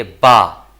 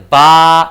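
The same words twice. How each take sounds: First: Said in the usual way. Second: बा loud, with the "aa" held very long; model long vowel. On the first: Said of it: "B double ए मतलब बा". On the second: Shown as a demonstration. Teacher shows how double A reads, long vowel. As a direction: stretch बा out on one note. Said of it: "इसको पढ़ते हैं बा".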